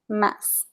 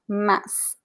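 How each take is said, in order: First: The final consonant sounds like s, alone. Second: The final consonant sounds like s, alone.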